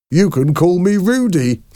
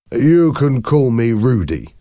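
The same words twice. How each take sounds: First: High mocking imitation ending in laughter; imitating Mister Hoven. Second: Higher-pitched nervous friendliness; nervous smile. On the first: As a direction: mimic him in a high voice, then crack up. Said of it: "started to imitate him". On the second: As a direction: offer it with an uneasy smile. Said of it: "Rudy Hoven smiled nervously". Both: A narrator's reading.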